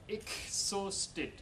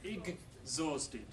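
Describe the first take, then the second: First: The middle is said with voiceless k and s. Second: The middle is said with voiced g and z. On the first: The speaker calls it wrong. "Dutch people tend to change it into exhausted" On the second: The speaker calls it right. "A g and a z sound"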